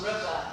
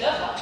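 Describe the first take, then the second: First: Said in the usual way. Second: Liver for river, L in place of R; liver, Malawian L swap. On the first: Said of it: "swap their R's with L's". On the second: Shown as a demonstration. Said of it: "is actually liver".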